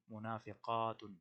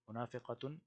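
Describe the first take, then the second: First: منافقاتن said slowly, syllable by syllable, mu-na-fi-qa-tun; slow drilled plural. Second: Said in the usual way. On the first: Shown as a demonstration. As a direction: spell out منافقاتن slowly for students to repeat. (منافقاتن کو آہستہ آہستہ، ایک ایک حرف واضح کر کے ادا کریں) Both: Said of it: "یہ آپ نے خود کرنا ہے".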